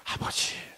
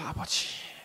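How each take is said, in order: Both takes have the same delivery.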